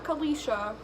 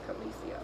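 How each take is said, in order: First: The name ends with a 'sha' sound. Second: The name ends with an 'ee' sound. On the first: The speaker calls it wrong. "Not Khaleesha" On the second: The speaker calls it right. "it's pronounced Khaleesi"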